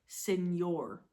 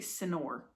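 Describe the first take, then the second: First: The middle consonant is an n with a y glide. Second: The middle consonant is a plain n sound. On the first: The speaker calls it right. "it sounds like it's got a, a Y in it" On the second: The speaker calls it wrong. "You don't say senor"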